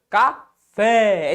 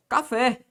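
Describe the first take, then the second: First: "Café" split, with "fé" long and forceful; stress on FÉ. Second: Said in the usual way. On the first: Shown as a demonstration. Teacher showing students the tonic syllable, "Café" with emphatic, drawn-out "fé". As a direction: push hard on the last syllable "fé" of "Café" and hold it. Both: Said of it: "A sílaba pronunciada com mais força".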